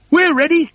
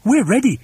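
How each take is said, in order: First: Very high, loud chirpy reply; loud, high-pitched bird voice; eager birds. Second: High, keen chorus reply; high-pitched ready response; eager monkeys. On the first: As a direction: pipe up high like keen birds. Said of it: "said the birds". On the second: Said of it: "said the monkeys". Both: A narrator's reading.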